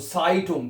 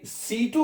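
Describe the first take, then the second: First: The first vowel sounds like 'eye'. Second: The first vowel sounds like 'ee'. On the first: The speaker calls it right. "इसको आपने आई पढ़ करके प्रोनाउंस करना है" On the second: The speaker calls it wrong. "जैसे सीटुंग नहीं पढ़ना है इसको"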